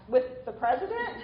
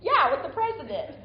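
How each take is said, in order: First: Mildly puzzled check-back; puzzled question. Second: Retold matter-of-course reply, higher and louder; nonchalant answer. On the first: Retold or imitated. Retelling a teenager asking about the White House meeting, puzzled. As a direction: ask it as if you didn't get it. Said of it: "I really didn't get it. So I asked". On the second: Retelling the answer to a puzzled teenager, mock nonchalant. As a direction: confirm it as if it were obvious. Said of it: "he said this so nonchalantly".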